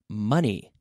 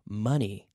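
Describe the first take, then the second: First: The first vowel sounds like the one in 'funny'. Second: The same.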